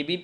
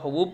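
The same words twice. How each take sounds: First: Said in the usual way. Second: A teacher shows the misreading حبوب, ha-boob; wrong reading. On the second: Shown as a demonstration. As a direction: say حبوب with u in both syllables, ha-boob. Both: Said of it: "آپ حبیب کی جگہ حبوب پڑھ دیجئے".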